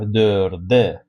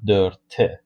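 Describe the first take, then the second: First: The consonant before the final vowel is voiced. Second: The consonant before the final vowel is voiceless. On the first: The speaker calls it right. "we change this t to this d" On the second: The speaker calls it wrong. "not dörte"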